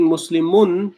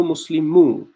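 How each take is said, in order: First: Muslimun closed with a noon sound; heavy ending. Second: Muslimu with a bare final "u", no n; light ending. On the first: Teacher contrasting heavy and light forms, heavy "un" ending. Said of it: "changing Muslimun to Muslimu". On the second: Teacher showing how to make ism light, open "u" ending. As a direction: end Muslimu on the vowel, no noon sound. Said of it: "That makes the ism light". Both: Shown as a demonstration.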